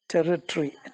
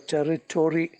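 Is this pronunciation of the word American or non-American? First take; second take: non-American; American. First: It is said without an American accent. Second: It is said with an American accent.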